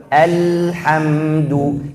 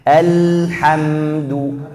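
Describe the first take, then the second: Both takes have the same delivery.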